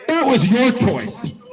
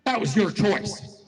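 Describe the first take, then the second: First: "That was your choice" driven home, louder and higher; emphatic repeat. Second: Said in the usual way. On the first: Real, not acted.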